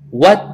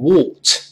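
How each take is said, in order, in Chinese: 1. 末尾的 t 保持闭塞，不除阻。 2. 末尾的 t 清楚地除阻，带有爆破。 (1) "后面那个t 失去爆破读成what" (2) "同样不读成what"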